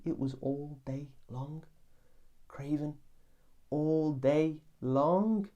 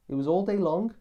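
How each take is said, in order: First: Dragged-out moan. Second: Higher, louder, pressing the point; emphatic exclaim. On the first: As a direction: drawl it like the craving never ends. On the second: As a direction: hammer home how long it lasted. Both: Acted. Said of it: "have I painted the picture accurately?".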